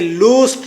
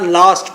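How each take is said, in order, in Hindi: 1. स्वर लंबे 'oo' जैसा लगता है। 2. स्वर खुले 'ah' जैसा लगता है। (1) "इसे लूस्ट नहीं पढ़ना" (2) "लास्ट पढ़ना है"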